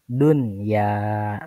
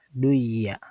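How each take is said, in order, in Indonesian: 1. Bunyi n dibaca jelas sebelum y. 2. Bunyi n melebur ke dalam y yang mengikutinya. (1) "Nunnya harus dibaca jelas" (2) "dimasukkan atau dileburkan ke dalam ya menjadi duya"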